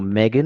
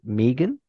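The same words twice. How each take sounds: First: The name is said the American way. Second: The name is said the non-American way.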